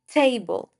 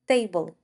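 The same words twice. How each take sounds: First: The t is said with a puff of air. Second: The t is said without a puff of air. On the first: The speaker calls it right. "You need to aspire p, t, and k, just like I'm doing right now" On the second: The speaker calls it wrong. "instead of"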